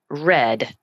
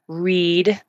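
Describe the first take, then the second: First: The vowel is a short E sound. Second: The vowel is a long E sound. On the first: It is past tense. "sounding as if it's the color red, not with a long E" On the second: It is present tense. "if it's present tense, it's read with a long E"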